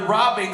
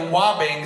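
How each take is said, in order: First: The word begins with a clear R sound. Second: The word begins with a W-like sound. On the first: "doesn't say their R's cleanly" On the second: "robbing sounds like wobbing"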